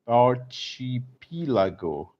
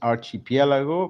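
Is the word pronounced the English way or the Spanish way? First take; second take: English; Spanish. First: The word is pronounced with English sounds. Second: The word is pronounced with Spanish sounds. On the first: "but here is archi, archipelago" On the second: "In Spanish is archipelago"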